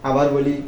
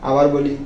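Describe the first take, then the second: The two takes are said the same way.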